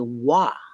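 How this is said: The syllable starts with a W sound. "they say wa"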